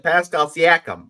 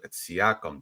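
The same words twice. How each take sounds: First: "Pascal Siakam" in a much higher, louder mock New York accent, drawn out slowly; "Siakam" mangled the way the announcer says it; mocking the announcer's "Pascal Siakam", high and loud; announcer mispronouncing. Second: Said in the usual way. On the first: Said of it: "a Canadian with a really bad New York accent". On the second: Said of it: "can you enunciate".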